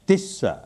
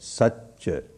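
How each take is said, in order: First: The word begins with a t sound. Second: The word begins with an s sound. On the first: "उच्चारण करके हमें बताता है तिस्सा" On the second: "पाली में सच होता है"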